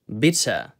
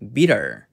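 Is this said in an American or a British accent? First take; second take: British; American. First: British accent, the t is pronounced clearly. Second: American accent, the t slides by softly. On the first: "영국식으로는 bitter, bitter 이렇게 발음을 해주고요" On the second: "미국식으로는 bitter, bitter 이렇게 T를 넘기는데"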